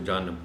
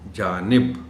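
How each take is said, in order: First: The second vowel is a short a, jaanab. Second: The second vowel is a short i, jaanib. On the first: The speaker calls it wrong. "बहुत से लोग हैं जो इसको जानब पढ़ जाते हैं।" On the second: The speaker calls it right. "सही लफ्ज़ है जानिब।"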